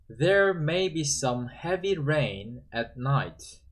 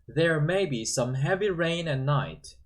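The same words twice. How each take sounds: First: It is read slowly. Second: It is read at natural speed.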